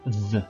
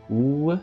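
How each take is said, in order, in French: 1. La lettre se prononce avec un son v. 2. La lettre se prononce avec un son w. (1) "ici on a deux prononciations" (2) "ici on a deux prononciations. Ou et V. Ou, comme dans Wi-Fi"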